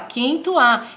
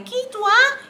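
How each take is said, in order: First: The voice is pitched in the middle. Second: The voice is pitched high.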